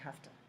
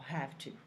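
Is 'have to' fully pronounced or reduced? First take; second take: reduced; fully pronounced. First: It is said quickly and reduced, like hafta. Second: It is said carefully with both words clear. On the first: "speak really fast" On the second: "You can have a good pronunciation"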